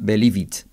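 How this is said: It is said with a Spanish-style accent. The speaker calls it wrong. "Pero seguro que diríamos believe it"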